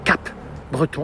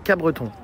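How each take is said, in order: First: The P sound is pronounced before 'Breton'. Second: The P sound is silent before 'Breton'. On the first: The speaker calls it wrong. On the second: The speaker calls it right. "Le P, P, on le prononce pas"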